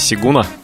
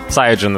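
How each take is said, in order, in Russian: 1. Первый слог звучит как 'see'. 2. Первый слог звучит как 'sigh'.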